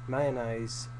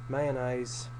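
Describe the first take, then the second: No difference in how they are said.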